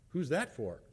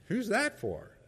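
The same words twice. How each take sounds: First: A mild edge of suspicion; lightly mock-suspicious question; pointed tone. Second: Higher, pointed accusing question; hammed-up suspicion, pitched way up; suspicious tone. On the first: Husband eyeing the soup, mildly suspicious tone. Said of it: "There was a tone to that". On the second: Husband at the door questioning wife's soup, mock-accusing. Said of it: "A tone".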